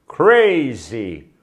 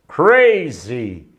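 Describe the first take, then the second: Both takes have the same delivery.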